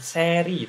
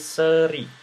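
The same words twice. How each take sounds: First: The first vowel is a clear, open e sound. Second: The first vowel is a weak, flat schwa sound. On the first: The speaker calls it wrong. "bukan seri" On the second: The speaker calls it right. "tapi seri ya. Ini bibirnya lebih lebih datar ya"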